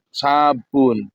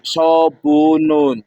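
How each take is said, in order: First: Said in the usual way. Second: "sobunun" drawn out slowly with full Arabic vowels and endings; Arabic-style sobunun. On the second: Shown as a demonstration. Preacher showing the Arabic form of soap: slow "sobunun".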